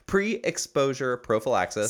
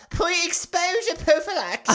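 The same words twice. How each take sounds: First: It is said in his normal voice. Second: It is said in a put-on street-urchin voice.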